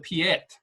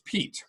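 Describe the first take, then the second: First: The name is said with two syllables. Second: The name is said as one syllable. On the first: The speaker calls it wrong. "You don't say the Piet" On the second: The speaker calls it right. "It's Pete, just plain old Pete"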